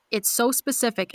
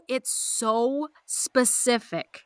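First: Said in the usual way. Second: "so specific" said slowly with weight; slow emphatic "so specific". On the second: Shown as a demonstration. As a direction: stretch out "so specific".

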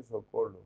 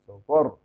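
First: "socorro" with l in place of rr; mock Chinese "socorro", l for the rr; mispronounced r as l. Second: Loud "socorro" with a trilled Spanish rr; emphatic, correct trill in "socorro"; correct rolled r. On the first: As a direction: say "socorro" the wrong way, with an l. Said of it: "No se dice". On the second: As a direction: hit "socorro" hard, rr fully rolled. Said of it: "se dice". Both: Shown as a demonstration.

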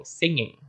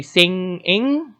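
First: "singing" said quickly, ng sliding straight into the second syllable; ng joined fast. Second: "singing" with the ng run straight into the next syllable; ng joined fast. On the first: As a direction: run "singing" together with no break. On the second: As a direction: link "singing" quickly, ng into the i. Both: Shown as a demonstration. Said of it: "connect it very rapidly".

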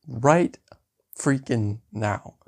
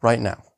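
First: "Right freaking now" drawn out, word by word; emphatic. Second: Said in the usual way. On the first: Acted. Tutor agrees to start at once, emphatic. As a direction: punch "Right", then slow down on "freaking now".

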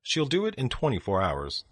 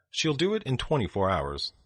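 Both takes have the same delivery.

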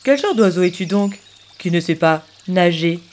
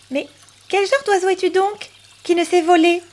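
First: Lower, odd-timbred duck voice; the duck shoots the question back, lower; duck's retort. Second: High, teasing bird voice; a small bird mocking the duck, pitched up; high, questioning little bird; cheeky little bird. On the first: Acted. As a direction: answer back as a grumpy duck.

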